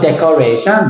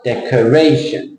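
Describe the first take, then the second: First: Decoration with every syllable full and the last one lifted; decoration, Thai-style, tune up at the end; wrong Thai-style stress. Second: Decoration with weight on RAY and a weak, falling -tion; decoration, one stressed peak on RAY; correct English stress. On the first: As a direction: give decoration even beats, rising on -tion. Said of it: "Thai people". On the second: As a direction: lean on RAY in decoration, swallow the ending. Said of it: "It's not decoration". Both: Shown as a demonstration.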